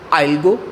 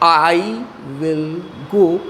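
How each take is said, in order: First: 'Will' is reduced and merged into 'I'. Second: 'Will' is said in full as a separate word.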